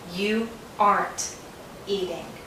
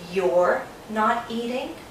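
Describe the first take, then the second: First: Are is merged into the word not. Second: Are is merged into the word you. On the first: "Sometimes Americans say you aren't eating" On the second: "Sometimes Americans say you're not eating"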